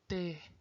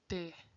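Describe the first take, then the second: Both takes have the same delivery.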